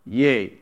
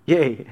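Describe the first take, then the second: First: One low, deep word, softer. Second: Imitated deep voice, a bit softer; mimicking a deep-voiced apostle. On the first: Acted. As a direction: drop low for a solemn answer. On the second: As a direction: drop lower on a one-word answer. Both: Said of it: "said it with a deep voice".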